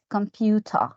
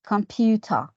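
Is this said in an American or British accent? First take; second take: British; British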